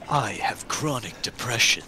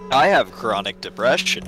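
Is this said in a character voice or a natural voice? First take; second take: character; natural. First: It is said in a put-on character voice. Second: It is said in the speaker's natural voice.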